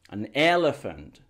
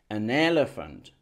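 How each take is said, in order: No difference in how they are said.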